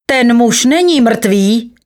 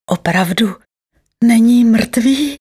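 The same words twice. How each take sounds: First: High, slow, emphatic announcement; strong voice. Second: Slow, hopeful question lifting higher. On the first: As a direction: declare it strongly, drawing out the words. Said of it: "měl překvapivě silný hlas". (důrazné zvolání silným hlasem) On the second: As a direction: ask with tentative, drawn-out hope. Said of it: "ptal se s nadějí". (otázka s nadějí, protáhle) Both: A narrator's reading.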